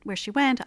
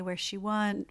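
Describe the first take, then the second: First: Went said crisply as "went" with its t; clear correction. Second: Went blurred into "wun", final t dropped; mumbled title. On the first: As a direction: restate "Went" cleanly with a full t. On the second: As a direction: slur "Went" as "wun" without the t. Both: Real, not acted.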